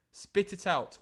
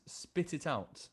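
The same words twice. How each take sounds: First: Sharp demand. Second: Slow quiet demand. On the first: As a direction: push the demand harder this time. Second, sharper take. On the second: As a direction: spit it out, slowed and pulled back. First of two takes. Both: Acted.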